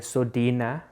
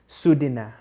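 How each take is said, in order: First: The first vowel is an o sound. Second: The first vowel is an oo sound. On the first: The speaker calls it wrong. "we would say Sodina" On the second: The speaker calls it right. "they actually pronounce that O as a U"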